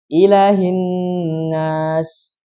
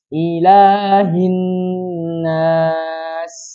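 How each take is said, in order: First: The vowel after the L is cut short. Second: The vowel after the L is held long. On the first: The speaker calls it wrong. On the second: The speaker calls it right.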